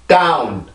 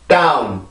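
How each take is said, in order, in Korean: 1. 영어처럼 들려요. 한 음절이 강하게 강세를 받아요. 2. 영어처럼 들려요. 한 음절이 강하게 강세를 받아요.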